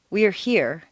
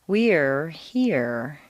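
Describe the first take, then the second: First: The vowel is short, on one pitch step. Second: The vowel is stretched across two pitch steps. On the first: The speaker calls it wrong. "Instead of" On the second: The speaker calls it right. "lengthen your vowel sounds, put them on two stair steps"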